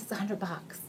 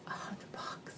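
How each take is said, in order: First: Said in the usual way. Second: Whispered repeat of the price. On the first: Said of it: "first take of the price". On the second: Shown as a demonstration. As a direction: drop to a whisper to stress the price. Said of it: "repeats price in a whisper".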